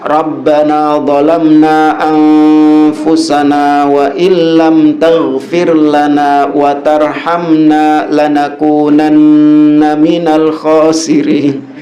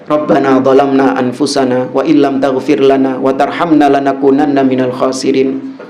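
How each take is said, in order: First: Sounds are drawn out in a measured recitation style. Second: Words flow at a plain, everyday talking pace. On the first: It is treated as reciting scripture. The speaker calls it wrong. "Itu dengan tajwid gitu" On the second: It is treated as talking to God. The speaker calls it right. "kayak orang ngomong"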